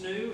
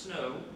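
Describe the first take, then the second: First: The vowel sounds like 'oo'. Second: The vowel sounds like 'oh'. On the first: The speaker calls it right. "It's pronounced snoo" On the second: The speaker calls it wrong. "It's not pronounced snow"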